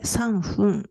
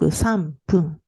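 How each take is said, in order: First: The second syllable starts with an f sound. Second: The second syllable starts with a p sound. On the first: The speaker calls it wrong. "c'est difficile à prononcer sanfun" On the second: The speaker calls it right. "donc sanpun"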